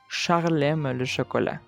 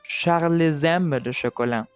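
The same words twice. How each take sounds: First: The words are said without an added linking consonant. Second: A linking consonant joins Charles to aime. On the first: The speaker calls it right. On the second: The speaker calls it wrong.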